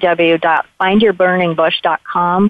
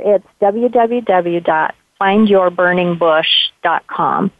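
First: It is said at a quicker pace. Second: It is said at a slower pace.

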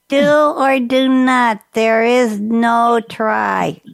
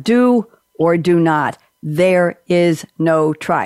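First: It is said in an imitation of Yoda. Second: It is said in his own normal voice.

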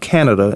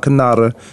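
First: It sounds like the English country name. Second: It sounds different from the English country name. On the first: The speaker calls it wrong. "It's not Canada" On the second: The speaker calls it right. "It's La Canada Drive"

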